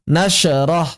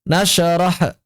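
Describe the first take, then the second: Both takes have the same delivery.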